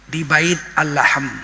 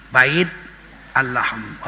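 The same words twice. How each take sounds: First: Bait Al-Lahm said slowly in Arabic, bait-al-LAHM; Arabic pronunciation. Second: Bait then Al-Lahm split apart, Arabic double l; Arabic pronunciation. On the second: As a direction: break Bait Al-Lahm into its two Arabic words. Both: Shown as a demonstration. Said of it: "Orang Inggris membacanya Bethlehem".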